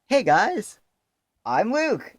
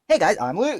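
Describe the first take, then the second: First: It is said with long gaps between words. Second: It is said tightly without gaps between words.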